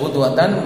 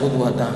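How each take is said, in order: First: The word ends with an added n sound. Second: The word ends on a vowel without n. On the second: "wa adamihi"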